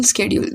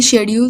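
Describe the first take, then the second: First: Schedule opening on SK, as "skedule"; SK pronunciation. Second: शेड्यूल opening on a SH sound; SH pronunciation. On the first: Showing both accepted pronunciations, schedule with SK. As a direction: start schedule with a hard "sked". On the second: Showing both accepted pronunciations, शेड्यूल with SH. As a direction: start शेड्यूल with "sheh". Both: Shown as a demonstration. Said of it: "दोनों pronunciation सही है".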